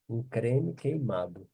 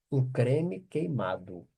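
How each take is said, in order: Both takes have the same delivery.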